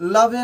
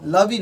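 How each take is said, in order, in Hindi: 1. शब्द के अंत में एक अतिरिक्त 'e' स्वर जुड़ा है। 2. शब्द के अंत में एक अतिरिक्त 'ee' स्वर जुड़ा है। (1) "हम इसे लवे नहीं पढ़ सकते हैं" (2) "लवी नहीं बोल सकते हैं"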